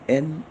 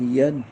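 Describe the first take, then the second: First: It starts directly with a plain e vowel. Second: It starts with a y glide before the vowel. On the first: The speaker calls it right. "असे स्पष्ट उच्चार आले पाहिजेत" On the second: The speaker calls it wrong. "असे करायचे नाहीत"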